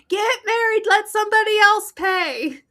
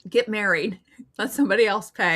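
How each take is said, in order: First: It is said louder. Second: It is said at normal volume.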